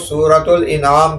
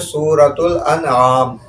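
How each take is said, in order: First: The second word begins with an 'i' sound. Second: The second word begins with an 'a' sound. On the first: The speaker calls it wrong. "इसे बाज़ लोग सूरतुल इनाम कहते हैं, जो कि तलफ़्फ़ुज़ दुरुस्त नहीं है" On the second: The speaker calls it right. "बल्कि इसका असल नाम है सूरतुल अनआम"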